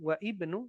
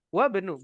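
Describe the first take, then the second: First: The i of ibnu is pronounced separately. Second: The i is dropped and words run together. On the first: The speaker calls it wrong. "bukan wa ibnu" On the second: The speaker calls it right. "melainkan wabnu"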